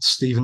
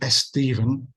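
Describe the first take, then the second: First: It starts directly with the s sound. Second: An extra e vowel comes before the s. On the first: The speaker calls it right. "not Stephen" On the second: The speaker calls it wrong. "starting the the words that begin with an S with an E instead"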